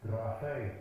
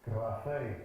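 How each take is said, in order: No difference in how they are said.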